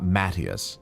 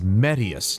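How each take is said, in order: First: The name is pronounced Matthias. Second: The name is pronounced Medius. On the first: The speaker calls it wrong. "not Matthias" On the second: The speaker calls it right. "I was saying it right. It's Medius"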